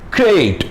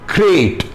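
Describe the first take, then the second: Both takes have the same delivery.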